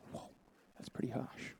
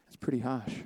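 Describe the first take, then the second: First: Breathy whisper, barely audible; whispered aside. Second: Said in the usual way. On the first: Real, not acted. Preacher whispering to the congregation about the harsh prophecy, whispered. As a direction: say "that's pretty harsh" under your breath, unvoiced.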